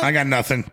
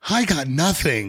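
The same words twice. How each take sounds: First: It is said in an angry tone. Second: It is said in a soft, sweet tone.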